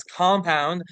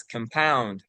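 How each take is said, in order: First: "compound" as KOM-pound, first syllable stressed; noun stress on compound. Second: "compound" as kum-POUND, second syllable stressed; verb stress on compound. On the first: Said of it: "the noun is compound". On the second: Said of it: "the verb is compound". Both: Shown as a demonstration.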